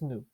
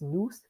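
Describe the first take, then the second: First: The final s sound is silent. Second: The final s sound is pronounced. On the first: The speaker calls it right. "Don't pronounce the s at the end. it's just nu" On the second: The speaker calls it wrong. "it looks like it's supposed to be pronounced nous"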